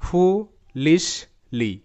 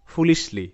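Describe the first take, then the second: First: ফুলিশলি stretched out slowly, syllable by syllable; teacher breaking ফুলিশলি into slow parts; slow syllable breakdown. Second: Said in the usual way. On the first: Shown as a demonstration. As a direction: draw out ফুলিশলি part by part. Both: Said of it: "ভেঙে নিয়ে করি তাহলে হবে".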